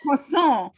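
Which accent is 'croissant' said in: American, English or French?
French. It is said with a put-on French accent. "put on a like fake French accent"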